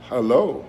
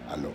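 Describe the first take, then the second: First: It is said with an American English accent. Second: It is said with a Spanish accent, no h. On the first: The speaker calls it right. "Es hello" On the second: The speaker calls it wrong. "aló es usando la palabra en inglés y pronunciándola en español"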